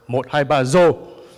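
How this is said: It is said in a Northern Vietnamese accent. "when a northerner drinks"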